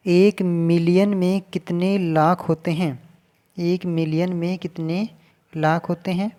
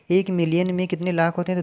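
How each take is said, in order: First: Slow question reading. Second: Said in the usual way. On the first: Shown as a demonstration. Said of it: "reading the question aloud". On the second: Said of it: "question repeated plainly".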